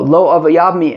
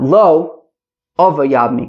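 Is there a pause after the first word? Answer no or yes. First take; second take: no; yes. First: The phrase is said in one go, without breaks. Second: The phrase is broken with a pause after the first word. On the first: He does not want to marry her. The speaker calls it right. "that phrase is read in one go" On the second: He does want to marry her. The speaker calls it wrong. "and not"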